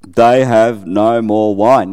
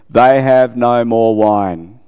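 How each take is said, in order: First: Slow and deliberate, falling on wine; slow repeated line. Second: Slow, each word drawn out, rising on They; slow quoted line. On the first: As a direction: let "wine" sink at the end, unhurried. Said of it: "'They have no more wine.'". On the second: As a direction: read Mary's words slowly, lifting at the end. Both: Shown as a demonstration.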